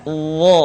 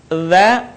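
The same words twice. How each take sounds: First: Heavy Dha with back of tongue raised; thick Dha. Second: Light Dha, tongue flat; thin Dha. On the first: Teacher contrasts two letters for learners, thickened Dha. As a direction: thicken Dha towards a rounded Dho. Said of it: "diucapkan dengan menebalkan suara". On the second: Teacher contrasts two letters for learners, thin Dha. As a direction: keep Dha thin and open. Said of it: "diucapkan dengan tipis suaranya". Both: Shown as a demonstration.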